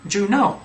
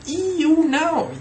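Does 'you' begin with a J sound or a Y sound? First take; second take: J sound; Y sound. First: The word 'you' begins with a J sound. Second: The word 'you' begins with a Y sound. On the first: The speaker calls it wrong. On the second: The speaker calls it right. "It's you, you know"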